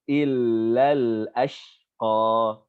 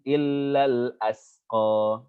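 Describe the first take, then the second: First: The last word is said with an 'sh' sound. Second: The last word is said with a plain 's' sound. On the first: The speaker calls it right. "ini shin" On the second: The speaker calls it wrong. "dibaca dengan sin"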